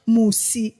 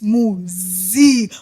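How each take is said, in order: First: The middle consonant is a hissing s sound. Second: The middle consonant is a buzzing z sound. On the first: The speaker calls it wrong. "My name is not Musi" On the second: The speaker calls it right. "it's Muzi with a Z"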